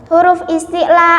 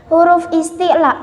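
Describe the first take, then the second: No difference in how they are said.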